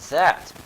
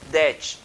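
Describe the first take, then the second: First: It is said with an English accent. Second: It is said with a Brazilian accent. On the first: The speaker calls it right. "esta palavra é that" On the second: The speaker calls it wrong. "O brasileiro ele fala ... det"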